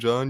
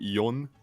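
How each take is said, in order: First: The J is said the English way. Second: The J is said the Swedish way. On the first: "instead of saying John" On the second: "why do Swedes pronounce the J so weirdly? ... you say jon"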